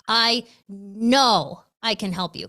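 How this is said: The word know is strongly stressed.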